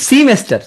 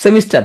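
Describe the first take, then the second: First: সিমেস্টার with a high, long "see" first; spelling pronunciation. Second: Said in the usual way. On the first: Shown as a demonstration. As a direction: say see-MES-tar for সিমেস্টার, first vowel stretched. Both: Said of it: "তুমি বলবা কি?".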